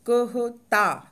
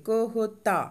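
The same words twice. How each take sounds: First: कहता said very slowly, क and ह with closed mouth. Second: Said in the usual way. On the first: Shown as a demonstration. Teacher showing closed-mouth क and ह in कहता. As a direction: drag out कहता, mouth shut on क and ह. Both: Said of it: "दोनों में बंद करिए".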